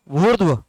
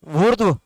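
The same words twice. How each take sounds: The two takes are said the same way.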